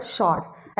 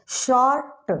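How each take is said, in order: First: Said in the usual way. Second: शॉर्ट drawn out, the final "ta" set apart; split into syllables. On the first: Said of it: "मैंने लिखा यहाँ पर शॉर्ट". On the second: Shown as a demonstration. Teacher showing two syllables in speech, शॉर्ट split as shor-ta. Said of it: "दो syllable आ रहा है इसमें".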